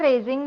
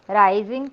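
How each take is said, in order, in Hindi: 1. पहला स्वर 'ay' जैसा सुनाई देता है। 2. पहला स्वर 'eye' जैसा सुनाई देता है। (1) "रेझिंग म्हणू शकता तुम्ही" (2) "रायझिंग पेक्षा"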